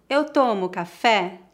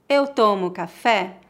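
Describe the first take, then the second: No difference in how they are said.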